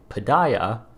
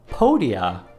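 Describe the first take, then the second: First: The word is said in a plain, ordinary way. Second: The word is said in a showy, fancy way. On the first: "in the normal way" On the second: "in a cool fancy way"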